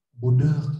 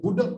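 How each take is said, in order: First: Mock-gentle retort. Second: Sharply higher pretend yell; mock street shout. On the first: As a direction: pretend to answer back tenderly. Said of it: "Saya balasnya lebih lembut". (balasan pura-pura lembut) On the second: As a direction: call it out like a heckler on the road. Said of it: "saya diteriakin di jalan". (pura-pura meneriaki orang, nada tinggi)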